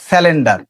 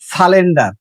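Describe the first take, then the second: First: The word is said with sya and l: syalender. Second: The word is said with an l sound: salender. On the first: "অথবা বলি স্যালেন্ডার" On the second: "আমরা বলি সালেন্ডার"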